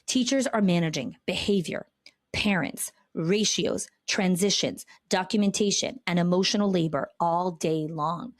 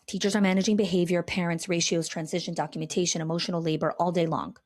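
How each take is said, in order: First: The list is said slowly. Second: The list is said very fast.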